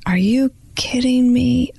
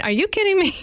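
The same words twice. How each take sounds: First: Slow, drawn-out retelling of her stunned reply, near tears; stunned disbelief. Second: Much higher, quick imitation of her brother's disbelief; mock disbelief. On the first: Retold or imitated. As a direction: let the disbelief stretch out, voice close to breaking. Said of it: "And I was like". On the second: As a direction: toss it up high like a teasing sibling.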